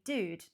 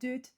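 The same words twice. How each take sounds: First: It is said with a plain British accent. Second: It is said with a put-on French accent. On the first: "I know I'm British... it would just be dude" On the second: "if I was to put on a awful French accent as well, it'd be like dude"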